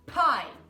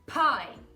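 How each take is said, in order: Both takes have the same delivery.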